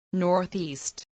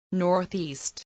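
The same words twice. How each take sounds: The two takes are said the same way.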